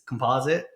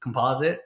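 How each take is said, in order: First: The word is said with an American pronunciation. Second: The word is said with an American pronunciation.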